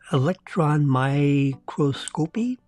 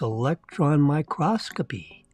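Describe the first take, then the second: First: Microscopy is stressed on its first syllable. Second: Microscopy is stressed on its second syllable. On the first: The speaker calls it wrong. "Like electron microscopy? No" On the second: The speaker calls it right. "it's electron microscopy"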